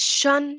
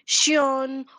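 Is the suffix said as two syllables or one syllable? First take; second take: one syllable; two syllables. First: The suffix sounds like one syllable, shun. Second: The suffix sounds like two syllables, shee-on. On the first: The speaker calls it right. "Remember, it is shun" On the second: The speaker calls it wrong. "If you say shion or shun or sun, that is incorrect"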